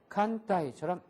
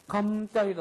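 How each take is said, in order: First: The first syllable ends in an n sound. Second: The first syllable ends in an m sound. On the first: The speaker calls it right. "니은 발음에 가깝게 발음 난다는 겁니다" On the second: The speaker calls it wrong. "감따이도 아니고"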